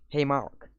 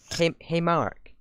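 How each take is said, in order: First: Said in the usual way. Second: Slow, higher mock cartoon greeting; slow, pitched-up attempt at the old cartoon voice; imitating a squeaky voice. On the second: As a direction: try to hit the old squeaky voice and miss. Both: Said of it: "I can't even do it".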